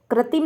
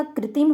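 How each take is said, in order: First: कृत्रिम with "kra" at the start; an a vowel in the first syllable of कृत्रिम; mispronunciation demo. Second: कृत्रिम with "kri" at the start; an i vowel in the first syllable of कृत्रिम; correct pronunciation. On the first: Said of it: "नहीं होता". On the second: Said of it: "होता है". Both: Shown as a demonstration.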